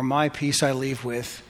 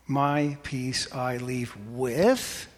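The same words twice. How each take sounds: First: Said in the usual way. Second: Quiet build to a lifted, unfinished with; stress on with. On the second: Shown as a demonstration. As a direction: hang the phrase on a rising with. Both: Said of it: "Emphasize one word".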